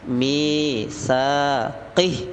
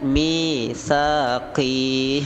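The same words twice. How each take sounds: First: The final syllable is short. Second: The final syllable is long. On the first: The speaker calls it right. "Yang benar adalah misaqih. mi panjang, sa panjang, qih pendek" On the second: The speaker calls it wrong. "Qihnya itu pendek, jangan dibaca misaqih. Nah, itu salah ya"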